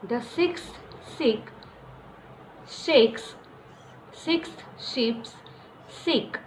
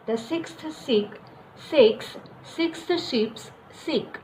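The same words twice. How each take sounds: First: It is said at a slower pace. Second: It is said at a fast pace.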